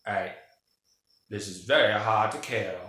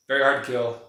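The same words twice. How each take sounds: First: Put-on accent, dropping the r in "hard"; Stephen Lang. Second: Said in the usual way. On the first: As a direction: act out a movie character's accent. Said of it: "That's my, uh, Stephen Lang accent".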